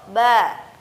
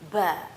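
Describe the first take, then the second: First: The syllable sounds clean with no extra breath. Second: The syllable comes with an audible puff of breath. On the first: The speaker calls it right. "suara yang murni atau suara yang bersih, terdengar jernih" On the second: The speaker calls it wrong. "diiringi dengan nafas"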